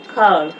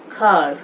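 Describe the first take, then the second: The two takes are said the same way.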